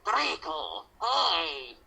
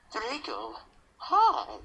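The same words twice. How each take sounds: First: Bright, bouncy hello; overly cheerful greeting. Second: Acted depressed greeting, pitched high; mock-depressed, higher-pitched hello; more depressed. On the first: Acted. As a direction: greet him way too happily. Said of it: "bipolar much?". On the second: Shown as a demonstration. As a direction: greet Draco with put-on gloom. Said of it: "I'll say more depressed".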